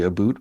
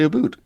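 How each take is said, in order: First: It imitates the stereotyped Canadian 'aboot'. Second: It is said the real Canadian way.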